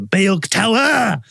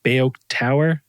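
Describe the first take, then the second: First: It is said in an exaggerated Thai-style accent. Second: It is said in a plain English-style accent. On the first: Locals understand it. The speaker calls it right. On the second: Locals do not understand it. The speaker calls it wrong.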